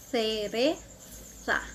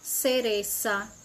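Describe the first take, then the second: First: The z is said as a th sound. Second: The z is said as an s sound. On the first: "Na Espanha" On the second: "No Chile"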